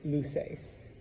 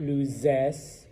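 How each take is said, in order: First: The consonant before the ending is a hissing s. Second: The consonant before the ending is a buzzing z. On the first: The speaker calls it right. "it's luces" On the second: The speaker calls it wrong. "It's not luces"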